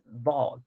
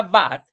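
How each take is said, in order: First: "vad" with a long rounded O, like "vod". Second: "vad" with a short open A, like "bad". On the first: Teacher concluding the correction, "vad" with long O. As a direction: stretch "vad" on an O sound. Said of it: "como dice, es". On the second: Teacher showing the hypothetical spelling, "vad" with open A. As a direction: say "vad" as if spelled with plain Spanish A. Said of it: "porque si fuera vad". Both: Shown as a demonstration.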